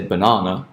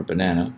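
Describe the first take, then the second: First: British banana, buh-NAH-nuh; British pronunciation. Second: American banana, buh-NAN-uh; American pronunciation. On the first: Teacher offering the British option, banana as buh-NAH-nuh. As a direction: say banana with a long open "ah" in the stressed middle. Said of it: "say it in the British". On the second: Teacher offering the American option, banana as buh-NAN-uh. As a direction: say banana with the "a" of "cat" in the middle. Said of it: "American accent". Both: Shown as a demonstration.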